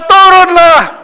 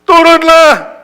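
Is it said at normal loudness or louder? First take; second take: louder; normal. First: It is shouted even louder. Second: It is shouted at a normal loudness.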